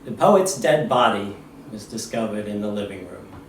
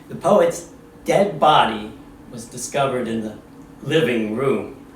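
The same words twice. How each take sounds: First: It is read plainly, without special emphasis. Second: It is read with strong, dramatic emphasis.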